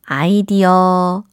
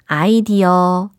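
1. 음절을 하나씩 끊어서 한국식으로 발음해요. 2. 음절을 하나씩 끊어서 한국식으로 발음해요.

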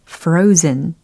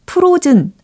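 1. 첫 번째 모음은 활음이 붙은 이중모음입니다. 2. 첫 번째 모음은 단모음입니다. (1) "모음이 이중 모음이었어요" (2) "frozen 아니고"

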